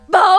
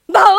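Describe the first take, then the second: First: The bark sounds sad and gloomy. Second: The bark sounds happy and cheerful.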